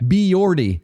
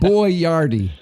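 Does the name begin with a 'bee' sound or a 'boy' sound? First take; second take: bee; boy. First: The name begins with a 'bee' sound. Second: The name begins with a 'boy' sound. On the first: The speaker calls it wrong. "calling him Biardi. or Biordi" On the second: The speaker calls it right. "almost like Chef Boyardee, but just a quicker pronunciation"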